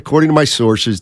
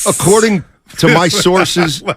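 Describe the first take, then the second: First: It is said in his own everyday voice. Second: It is said in an imitated newsman's voice.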